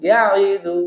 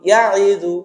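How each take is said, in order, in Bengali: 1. 'ya' এর পরের স্বরধ্বনিটি ছোট রাখা হয়। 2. 'ya' এর পরের স্বরধ্বনিটি ছোট রাখা হয়।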